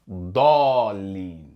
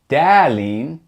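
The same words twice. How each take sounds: First: The first vowel is heavy and back. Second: The first vowel is light and front. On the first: The speaker calls it right. "It's pronounced like Da" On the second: The speaker calls it wrong. "You don't hear Dalin"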